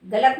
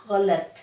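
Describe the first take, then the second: First: गलत loud, with a hard plain g; wrong Hindi sound. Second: गलत with a throaty gh fricative, lower; correct Urdu sound. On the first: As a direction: punch out गलत with an ordinary Hindi ग. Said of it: "गलत नहीं". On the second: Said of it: "किससे बोलेंगे?". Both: Shown as a demonstration.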